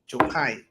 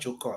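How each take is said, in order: First: The name ends with a 'kai' sound. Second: The name ends with a 'ker' sound. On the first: The speaker calls it right. "the man name is Jokai" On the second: The speaker calls it wrong. "not Joker"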